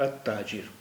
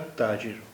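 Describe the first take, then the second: The two takes are said the same way.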